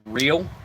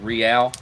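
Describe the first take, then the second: First: It sounds like the English word 'real'. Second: It sounds like the end of 'L'Oreal'. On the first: The speaker calls it wrong. "Everyone pronounces it in America uh" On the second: The speaker calls it right. "but it's actually Real, like uh, like L'Oreal"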